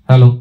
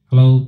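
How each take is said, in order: First: The voice has a flat, unboosted tone. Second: The voice has boosted low bass frequencies. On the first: "এটি ছিল flat পজিশনের আওয়াজ" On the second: "আমি দেখুন বেসকে boost করছি"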